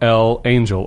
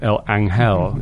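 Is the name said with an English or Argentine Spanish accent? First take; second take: English; Argentine Spanish. First: It is said with an English accent. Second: It is said with an Argentine Spanish accent.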